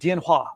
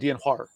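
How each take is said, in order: First: It is said in clear standard Mandarin. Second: It is said in a Beijing accent. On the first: "Like she said, dianhua, ... the technical, like, perfect way to say it" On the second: "Whereas I would say dianhua. ... that's my accent"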